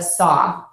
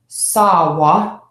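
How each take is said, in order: First: The word ends on its vowel, one syllable. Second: An extra syllable is added at the end. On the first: The speaker calls it right. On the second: The speaker calls it wrong.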